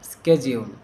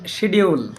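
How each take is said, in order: First: The word begins with an 'sk' sound. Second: The word begins with an 'sh' sound. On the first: The speaker calls it right. "বিদেশিরা যেভাবে উচ্চারণ করে স্কেজিউল" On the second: The speaker calls it wrong. "আমরা বলি শিডিউল"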